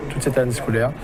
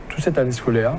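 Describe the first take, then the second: No difference in how they are said.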